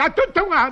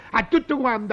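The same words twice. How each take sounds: First: Mock loud shout. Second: Said in the usual way. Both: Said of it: "perché grida tanto".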